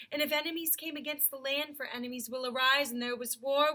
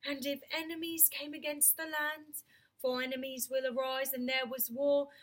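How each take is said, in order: First: Louder, commanding lion king; a lightly voiced, regal Aslan; Aslan's voice. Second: Said in the usual way. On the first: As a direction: speak it as the great lion Aslan. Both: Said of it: "ooh, that's Aslan".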